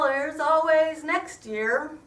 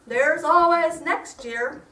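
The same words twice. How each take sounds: First: It is muttered quietly under the breath. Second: It is said noticeably louder. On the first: "I muttered" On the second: "the mantra was said a little bit louder"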